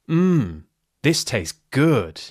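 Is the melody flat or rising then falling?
rise-fall. The pitch rises then falls on mmm. The speaker really means it. "that rise full tone shows that I really mean it"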